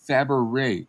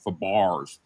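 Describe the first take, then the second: First: The name ends without an s sound. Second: The name ends with an s sound. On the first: The speaker calls it right. "It's it's Fabare" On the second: The speaker calls it wrong. "not Fabars"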